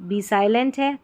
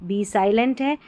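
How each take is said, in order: The two takes are said the same way.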